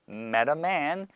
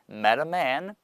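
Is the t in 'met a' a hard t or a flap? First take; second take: flap; flap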